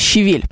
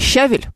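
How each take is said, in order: First: The stress falls on the second syllable. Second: The stress falls on the first syllable. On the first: The speaker calls it right. "которое на самом деле «щавель»" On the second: The speaker calls it wrong. "Следующее в моем списке слово «щавель»"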